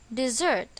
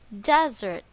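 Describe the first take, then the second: First: The stress is on the second syllable. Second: The stress is on the first syllable. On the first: It means to leave or abandon someone. "Its pronunciation is dessert. Same with the noun dessert" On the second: It names a dry region of land. "The stress is on the first syllable"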